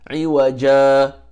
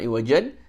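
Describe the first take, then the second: First: The word ends on a vowel a, no n. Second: The word ends with the sound an. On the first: The speaker calls it right. "it becomes iwaja" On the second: The speaker calls it wrong. "not iwajan"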